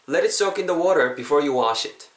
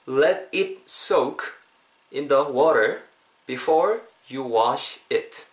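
First: It is said at natural speed. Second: It is said slowly.

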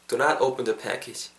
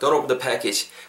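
First: The negative is said in full and stressed. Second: The negative is contracted and unstressed. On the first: The warning is given with extra force. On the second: The warning is given in a plain, neutral way.

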